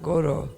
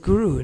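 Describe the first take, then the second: First: The vowels are said as 'oh' sounds. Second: The vowels are said as 'oo' sounds. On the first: The speaker calls it wrong. "not Goro. ... Go means cow" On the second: The speaker calls it right. "It is Guru"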